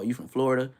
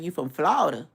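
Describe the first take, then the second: First: It is said in a West Coast accent. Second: It is said in a local Southern accent. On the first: The speaker is not from the area. The speaker calls it wrong. "when I was in Cali, we was like" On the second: The speaker blends in as a local. The speaker calls it right. "you gotta say it like them"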